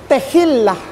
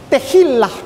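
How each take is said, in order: Both takes have the same delivery.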